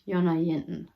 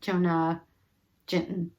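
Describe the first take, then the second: First: The name begins with a Y sound. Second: The name begins with a J sound. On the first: The speaker calls it right. "J's are pronounced like we do Y's. So I think it would be" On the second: The speaker calls it wrong. "when I look at it, I want to say"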